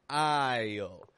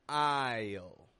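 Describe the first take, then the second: Both takes have the same delivery.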